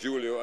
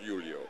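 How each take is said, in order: First: The name is said the English way. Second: The name is said the Spanish way. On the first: This is how the player's name is said here. The speaker calls it right. "We have been told it's Julio" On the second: This is not how the player's name is said here. The speaker calls it wrong. "not giving it the Spanish pronunciation"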